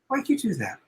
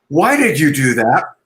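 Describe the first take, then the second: First: The question sounds warm and curious. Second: The question sounds harsh and accusing. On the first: The asker wants to understand the other person. The speaker calls it right. "I want to know, I want to understand you" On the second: The asker blames the other person. The speaker calls it wrong. "A very kind of prosecutorial questioning"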